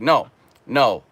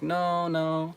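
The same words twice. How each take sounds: First: The refusal sounds firm and cold. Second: The refusal sounds light and giggly. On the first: She is not interested at all. "they give you a strong no" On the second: She is still open to more attention. "giggling and saying like no, no"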